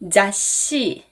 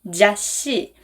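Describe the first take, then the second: The two takes are said the same way.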